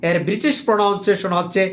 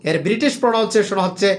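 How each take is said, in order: The two takes are said the same way.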